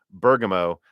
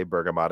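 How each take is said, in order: First: "Bergamo" ending in an open -mo vowel, no t; correct version. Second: "bergamot" ending in a hard t, like the fruit; wrong version. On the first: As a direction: say "Bergamo" with a clean -oh ending, Lisa Su's way. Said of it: "I didn't say bergamot". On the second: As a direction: say "bergamot" with a final -mot sound. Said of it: "I said Bergamo". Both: Shown as a demonstration.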